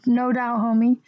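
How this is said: It is said with a tired sigh.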